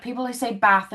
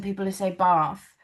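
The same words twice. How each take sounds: First: "bath" with a short flat A, as in cat; "bath" rhyming with "math"; short-vowel bath. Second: "bath" with a long AH, as in father; southern English long A in "bath"; long-vowel bath. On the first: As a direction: say "bath" with the northern English short A. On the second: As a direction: say "bath" as "bahth". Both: Shown as a demonstration. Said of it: "In the U K, 'cause obviously we have".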